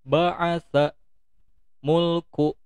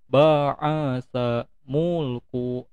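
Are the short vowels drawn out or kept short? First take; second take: short; drawn out. First: The short vowels are kept short. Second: The short vowels are stretched out long. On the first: The speaker calls it right. "seharusnya bacanya itu" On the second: The speaker calls it wrong. "Kayak gini juga ada"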